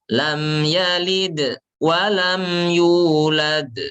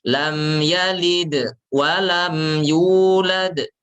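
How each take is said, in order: Both takes have the same delivery.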